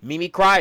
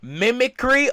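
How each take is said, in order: First: The word ends with the sound 'cry'. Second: The word ends with the sound 'cree'. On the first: The speaker calls it wrong. "I don't know why I read that as Mimi Cry" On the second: The speaker calls it right. "I'm so dumb"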